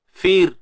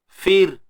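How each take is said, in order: Both takes have the same delivery.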